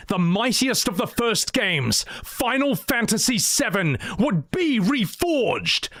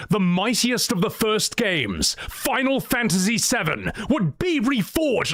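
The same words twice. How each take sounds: First: Epic fantasy narrator. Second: Rising epic narration, first try; epic fantasy narrator. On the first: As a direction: stretch out reforged majestically. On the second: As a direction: build it up grandly. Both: Shown as a demonstration. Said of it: "Let me do that line again".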